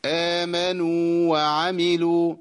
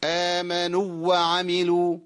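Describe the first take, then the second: First: "آمنوا وعملوا" with the madd waw held two beats, chanted; slow chanted "آمنوا" with its long u held; correct recitation. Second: "آمنوا وعملوا" with the long waw swallowed into the next waw; "آمنوا" cut short and run into "وعملوا"; wrong merged waw. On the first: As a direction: rest gently on the waw of "آمنوا" before "وعملوا". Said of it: "الصواب إيه يا شيخ". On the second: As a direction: rush the madd in "آمنوا" so it merges. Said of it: "ده خطأ". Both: Shown as a demonstration.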